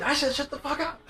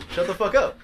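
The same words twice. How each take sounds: First: High-pitched, heated repeat; retold yelling. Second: Said in the usual way. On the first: Driver answering his angry date, high mock yell. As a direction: re-enact snapping back in an argument. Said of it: "So we're yelling at each other".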